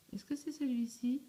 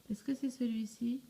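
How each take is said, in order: Both takes have the same delivery.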